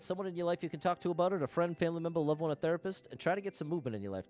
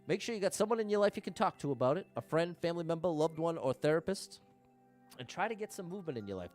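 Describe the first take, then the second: First: It is said at a fast rate. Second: It is said at a slow rate.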